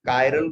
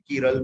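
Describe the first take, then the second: First: The first syllable sounds like 'kai'. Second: The first syllable sounds like 'ki'. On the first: "कायरल बोलते हैं" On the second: "किरल भी बोलते हैं इसको"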